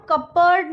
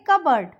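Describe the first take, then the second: First: कपबोर्ड said with the P sounded; कपबोर्ड as cup plus board; mispronunciation demo. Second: कबर्ड said as cub-ard, P silent; कबर्ड with a reduced second vowel; correct pronunciation demo. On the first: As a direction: wrongly voice the P in कपबोर्ड. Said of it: "नहीं बोलेंगे". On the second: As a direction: say कबर्ड without any P. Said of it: "इसको हम बोलेंगे". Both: Shown as a demonstration.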